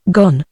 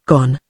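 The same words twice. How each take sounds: First: Mildly intrigued, questioning echo at usual pitch; echoing query. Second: Low, understated forlorn murmur; forlorn mutter. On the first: Romantic Frenchman echoing Lanyard's news, mildly eager and questioning. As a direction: echo the word with eager interest. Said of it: "he echoed". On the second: Lanyard admitting his beloved has left, muttered forlornly. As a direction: mutter it lower, lost and forlorn. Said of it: "he muttered forlornly". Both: A narrator's reading.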